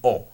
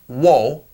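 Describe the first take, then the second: First: It starts directly with the vowel. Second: It starts with a w sound. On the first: The speaker calls it right. "more pronounced like an o" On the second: The speaker calls it wrong. "it's not really pronounced wo"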